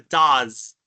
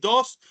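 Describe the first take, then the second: First: It has a short vowel and ends in z. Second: It has an o vowel and ends in s. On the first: The speaker calls it right. "es una Z inglesa" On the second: The speaker calls it wrong. "de decir dos, no hay O, no hay E, no hay S"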